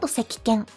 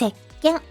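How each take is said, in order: First: A full ki syllable sits between se and ken. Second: The k is held with a silent beat, no vowel. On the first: The speaker calls it wrong. "So soap is not sekiken" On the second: The speaker calls it right. "It's sekken"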